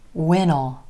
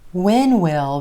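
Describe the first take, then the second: First: Will is reduced and joined onto when. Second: Will is said as a full separate word. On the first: "When will becomes when'll" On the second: "When will becomes when'll"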